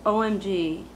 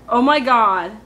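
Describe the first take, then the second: First: Said in the usual way. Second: Loud dramatic Oh my God. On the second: Shown as a demonstration. Contrasting full phrase with slang, loud and dramatic. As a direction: throw drama into every word. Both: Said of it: "There's no drama there".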